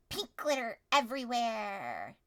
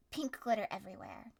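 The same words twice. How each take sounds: First: Slow dramatic. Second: Said in the usual way. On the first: Shown as a demonstration.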